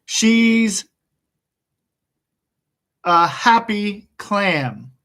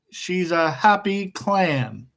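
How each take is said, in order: First: Slow dictation. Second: Said in the usual way. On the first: Shown as a demonstration.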